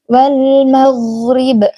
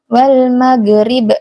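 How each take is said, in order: First: The gh sound flows on continuously. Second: The gh sound is cut short without flowing. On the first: The speaker calls it right. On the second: The speaker calls it wrong. "jangan seperti itu ya Umi"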